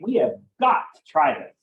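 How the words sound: The word got carries the strongest stress. Trying it is absolutely necessary. "I'm putting a lot of emphasis on the word got"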